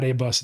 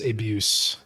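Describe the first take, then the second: First: The U is said as a short vowel. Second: The U is said as a long vowel. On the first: The speaker calls it wrong. "it's not A-Bus" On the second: The speaker calls it right. "The U is a long U"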